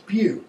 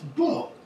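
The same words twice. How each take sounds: First: It is said like the start of beauty. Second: It is said the French way, like 'bo'. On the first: The speaker calls it right. "But it's not. It's beau" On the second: The speaker calls it wrong. "we see that as being from French, and it's beau"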